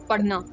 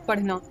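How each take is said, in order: No difference in how they are said.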